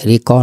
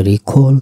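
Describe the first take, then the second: First: রিকল said with a plain unaspirated k and a clipped end, as in "riko"; wrong pronunciation. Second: রিকল with an aspirated k and a full final l, as in "rikhol"; correct pronunciation. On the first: Teacher showing the mistaken way to say রিকল. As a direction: say রিকল the sloppy common way. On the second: Teacher giving students the right way to say রিকল. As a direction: say রিকল carefully, breathing out on the k. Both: Shown as a demonstration. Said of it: "উচ্চারণটা রিকল".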